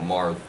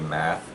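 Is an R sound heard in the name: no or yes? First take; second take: yes; no. First: The name is said with an R sound. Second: The name is said without an R sound. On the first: The speaker calls it right. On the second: The speaker calls it wrong.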